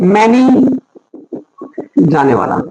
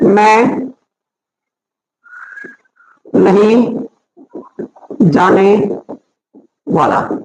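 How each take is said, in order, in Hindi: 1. 'Main' और 'nahin' एक शब्द की तरह जुड़कर बोले जाते हैं। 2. 'Main' और 'nahin' अलग-अलग शब्दों की तरह बोले जाते हैं।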